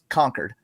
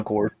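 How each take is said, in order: First: The second syllable sounds like curd. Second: The second syllable sounds like cord.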